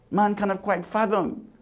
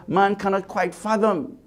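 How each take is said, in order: Both takes have the same delivery.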